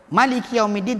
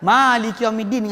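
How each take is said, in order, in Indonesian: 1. Vokal pertama dari kata pertama itu pendek. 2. Vokal pertama dari kata pertama itu panjang. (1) "tak panjang" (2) "dengan panjang"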